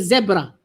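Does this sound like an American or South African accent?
South African. It is said in a South African accent.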